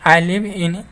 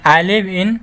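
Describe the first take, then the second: No difference in how they are said.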